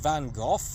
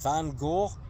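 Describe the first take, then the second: First: The name ends with an f sound. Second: The name ends on a vowel sound. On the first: The speaker calls it right. "It's like saying tough or enough" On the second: The speaker calls it wrong. "his name isn't Van Gogh"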